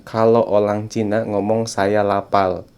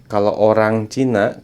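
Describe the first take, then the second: First: Film-style Chinese accent, every R turned to L; mock Chinese accent. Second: Said in the usual way. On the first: Shown as a demonstration. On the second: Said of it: "di film-film begini".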